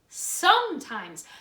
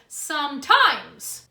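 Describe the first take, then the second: First: The stress is on the first syllable. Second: The stress is on the second syllable. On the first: The speaker calls it right. "The first part of the word is stronger than the second part of the word" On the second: The speaker calls it wrong. "Do we say sometimes? No"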